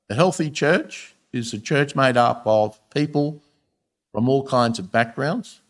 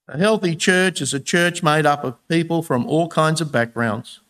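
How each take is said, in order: First: It is read at a slower pace. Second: It is read at a normal, quicker pace.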